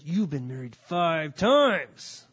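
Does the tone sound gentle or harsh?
harsh. The tone sounds harsh and condemning. The words are meant to condemn the listener. The speaker calls it wrong. "I used to think he said, ... I don't think that was his tone of voice"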